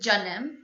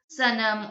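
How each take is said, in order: First: The word begins with a j sound. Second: The word begins with an s sound. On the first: "has the same pronunciation as a J in English" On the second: "Probably you would pronounce it sanam"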